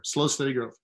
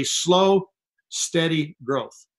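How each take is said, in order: First: Said in the usual way. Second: Dragged-out slow. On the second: Shown as a demonstration. Mocking slow growth.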